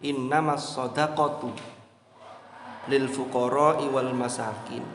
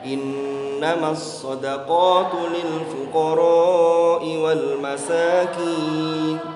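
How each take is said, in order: First: The vowel in fuqara is cut short. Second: The vowel in fuqara is held long. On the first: The speaker calls it wrong. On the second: The speaker calls it right.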